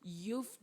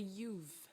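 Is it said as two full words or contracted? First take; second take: contracted; contracted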